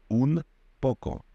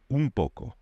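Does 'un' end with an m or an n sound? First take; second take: n; m. First: The word un ends with an n sound. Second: The word un ends with an m sound. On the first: "powiedzielibyśmy sobie" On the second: "Hiszpanie w szybkiej wymowie powiedzą"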